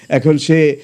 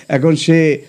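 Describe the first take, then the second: Both takes have the same delivery.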